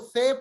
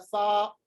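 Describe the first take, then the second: First: The name ends in an 'eh' vowel. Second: The name ends in an open 'ah' vowel. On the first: This is how it is read in Urdu. "इसको से पढ़ते हैं" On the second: This is how it is read in Arabic. "से के बजाय इसको पढ़ा जाएगा सा"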